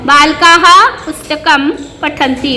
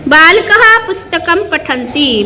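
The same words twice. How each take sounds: First: "बालकाः" with a long drawn-out aa in का; long-vowel plural. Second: "बालकः" with a short a in the middle syllable; short-vowel singular. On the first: Teacher gives the class the corrected plural, slow long-vowel "बालकाः". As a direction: slowly stretch the का in "बालकाः". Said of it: "बालकः की जगह क्या हो जाएगा?". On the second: Teacher reads the faulty sentence to the class, short-vowel "बालकः". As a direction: say "बालकः" with क kept short before the ḥ. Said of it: "बालकः क्या है? एक वचन है कि बहुवचन है?". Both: Shown as a demonstration.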